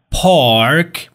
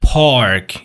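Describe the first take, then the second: First: British "پارک", drawn out, silent r; British accent, long ah and no r in "پارک"; British pronunciation. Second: American "پارک" with the r sounded; American accent, pronounce the r before k in "پارک"; American pronunciation. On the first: English teacher showing the silent r, British accent. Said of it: "توی بریتیش این آر تلفظ نمیشه". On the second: English teacher contrasting it with British, American accent. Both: Shown as a demonstration.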